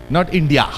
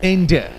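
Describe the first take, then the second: First: "India" said the wrong way, marked as not this. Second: "India" with stress on IN, falling; correct India. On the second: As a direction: lean on "In" in "India". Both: Shown as a demonstration.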